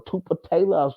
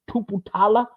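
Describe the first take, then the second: First: "Tuputala" with TAY in it, falling; alternative pronunciation. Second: "Tuputala" with TAH in it, high and rising; tentative pronunciation. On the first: Host corrects his guess at a surname, "Tuputala" said too-puh-TAY-la. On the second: Host guesses a linebacker's surname, "Tuputala" said too-poo-TAH-la, unsure. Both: Real, not acted. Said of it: "excuse me if I mispronounce".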